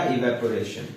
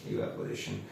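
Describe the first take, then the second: First: Said in the usual way. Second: evaporation echoed much softer; evaporation repeated almost under the breath. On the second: Shown as a demonstration. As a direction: let evaporation fade to a near whisper. Answering own question, then echo.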